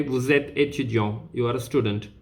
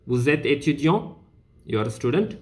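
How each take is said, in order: First: Said in the usual way. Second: "étudiant" and "student" each rising at the end; question intonation. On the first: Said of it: "which is an information". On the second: Shown as a demonstration. Teacher showing it becomes a question, rising on "étudiant" and "student". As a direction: raise the tone on "étudiant" and "student" to ask. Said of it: "then it becomes a question".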